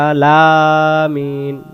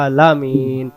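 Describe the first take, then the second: First: The vowel after the l is drawn out. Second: The vowel after the l is short. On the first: The speaker calls it wrong. "লম্বা হয়ে গেল" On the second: The speaker calls it right. "তাড়াতাড়ি"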